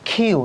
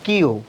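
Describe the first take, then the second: First: The first sound has a strong puff of air. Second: The first sound has no puff of air. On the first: The speaker calls it right. "কিউ নট" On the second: The speaker calls it wrong. "নট কিউ"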